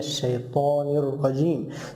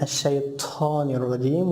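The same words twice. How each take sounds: First: The t sound is said without whispered breath. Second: The t sound is whispered with breath. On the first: The speaker calls it right. "ta is not whispered" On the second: The speaker calls it wrong. "they make whispering when they pronounce ta"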